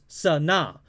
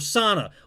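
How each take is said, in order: First: The final syllable is long and strong. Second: The final syllable is short and weak. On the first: "there's a big na at the end" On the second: "that's not how you say her name, it's Sana"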